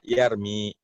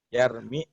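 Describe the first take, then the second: First: The final vowel is held long. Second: The final vowel is cut short.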